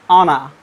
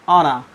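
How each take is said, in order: Both takes have the same delivery.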